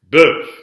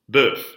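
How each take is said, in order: First: The word ends on a vowel with no F. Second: The word ends with an audible F sound. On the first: "So here we have an example where that F is silent" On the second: "when that F is pronounced"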